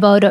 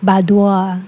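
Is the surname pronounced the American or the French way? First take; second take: American; French. First: The surname has an American, Cajun-influenced pronunciation. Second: The surname has a French pronunciation. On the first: This is how it is said locally, under Cajun influence. "here, like the Bodo is like, I feel like that's kind of like it's the Cajun influence" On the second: This is how it would be said in France. "if it was like in the France, I would say [name]"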